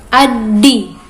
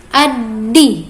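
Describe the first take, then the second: No difference in how they are said.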